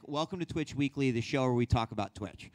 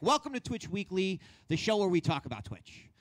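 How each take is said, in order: First: Said in the usual way. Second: Higher, brighter host welcome; excited show intro, pitch raised. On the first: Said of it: "if I take the sort of the the line". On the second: Shown as a demonstration. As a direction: pump up the opening like a show host. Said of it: "If I'm gonna be excited, I'm gonna probably have a higher pitch".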